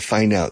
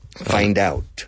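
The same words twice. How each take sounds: First: The final d of find is dropped. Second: The d is linked straight into out. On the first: The speaker calls it wrong. "Si no, suena find out. Los hispanohablantes no dicen la D al final de las palabras" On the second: The speaker calls it right. "Pero enlázalo"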